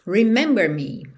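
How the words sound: It is said as a flat statement.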